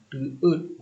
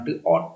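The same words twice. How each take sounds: First: "Teet" with a plain e vowel; correct reading teet. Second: "teot" with an o vowel; wrong reading teot. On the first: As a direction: model "Teet" as the right reading. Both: Shown as a demonstration. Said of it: "bukan teot".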